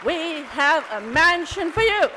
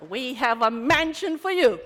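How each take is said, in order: First: Higher and loud, ringing out; grand welcome. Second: Louder, with a laugh; laughing welcome. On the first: Repeating the welcome to the women, loud and high. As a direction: proclaim it warmly to the room. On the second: Welcoming hurt women with a laugh. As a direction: offer it with a chuckle. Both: Retold or imitated.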